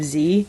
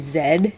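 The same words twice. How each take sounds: First: It is said the American way, 'zee'. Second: It is said the British way, 'zed'.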